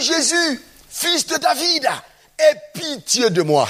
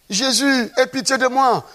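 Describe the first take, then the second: First: High, insistent retold cry; Bartimée crying louder. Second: Higher-pitched retold cry. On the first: Preacher acts out the blind man persisting despite the crowd, crying out louder. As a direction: call out harder, pitched well up. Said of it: "il cria plus fort". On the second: Preacher acts out Bartimée's first plea to Jesus, crying out. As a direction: imitate a blind man calling out. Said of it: "il a commencé à crier".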